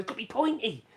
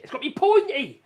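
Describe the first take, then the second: First: Said in the usual way. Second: "pointy" yelled high and loud in a film-character rant; hammed-up loud insistence on "pointy"; mock shout. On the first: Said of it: "he goes". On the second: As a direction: bark out "It's gotta be pointy!" like the movie dictator. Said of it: "Sacha Baron, whatever, he goes".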